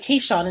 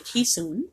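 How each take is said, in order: First: The name is said in an English-style way. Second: The name is said in a Dutch way. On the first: The speaker calls it wrong. "We've been saying it wrong all this time" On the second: The speaker calls it right. "how to correctly say the name"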